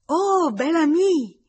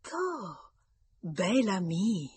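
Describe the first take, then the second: First: High, loud, drawn-out gleeful cry; delighted child's shout. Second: Slow, savouring repeat of the nickname; amused echo. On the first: Girl runs to greet him clapping, shouting with delight. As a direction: shout it like an overjoyed little girl. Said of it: "battendo le mani e gridando". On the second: Mother laughs at the girl's nickname, amused and slow. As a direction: draw out BEL with amusement. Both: A narrator's reading.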